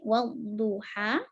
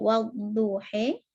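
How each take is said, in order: First: The final vowel is a fully open a. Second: The final vowel is halfway between a and e. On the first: "kalau Fathah berarti wadduha" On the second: "kalau taklil wadduhe"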